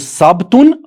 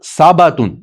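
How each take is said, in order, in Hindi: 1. b के बाद सीधे t आता है। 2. b के बाद एक छोटा a स्वर आता है।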